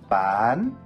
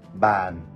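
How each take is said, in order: First: The word is said with a high rising tone. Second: The word is said with a low falling tone. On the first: It means to sell. "싹성조" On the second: It means a desk. "이거를 만약에 내리면"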